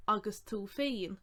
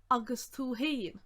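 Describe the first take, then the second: First: "féin" opened with an f sound; a clear f at the start of "féin"; alternative form. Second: "haon" opened with an h sound; one variant. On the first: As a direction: say "féin" like "fane". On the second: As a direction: say "haon" like "hain". First of two alternative forms. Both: Shown as a demonstration.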